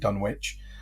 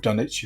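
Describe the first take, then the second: First: It is said with a non-English pronunciation. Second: It is said with an English pronunciation.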